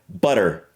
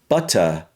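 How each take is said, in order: First: It is said in an American accent, pitch rising. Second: It is said in a British accent, pitch lowering. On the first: "When I speak with the American, my voice ... almost needs to raise up" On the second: "when I say it in the British version, it almost needs to lower"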